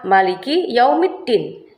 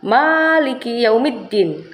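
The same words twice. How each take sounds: First: The first vowel of the first word is short. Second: The first vowel of the first word is long. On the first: It means the king. "fathahnya biasa yang artinya bisa dibaca dengan kata pendek ma" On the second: It means the owner. "memnya menggunakan fathah berdiri, artinya dibaca panjang ma"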